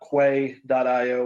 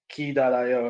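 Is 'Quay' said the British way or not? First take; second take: non-British; British. First: Quay is said in a non-British way. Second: Quay is said in a British way.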